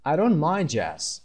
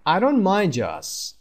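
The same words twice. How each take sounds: First: Said in the usual way. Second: Slow and higher, leaning on "don't"; slow model reading. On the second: Shown as a demonstration. Teacher models the phrase slowly for students. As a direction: spell it out slowly for learners.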